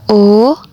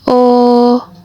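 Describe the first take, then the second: First: The vowel carries the second tone. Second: The vowel carries the first tone. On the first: "nada yang kedua" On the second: "Mulai dari nada yang pertama"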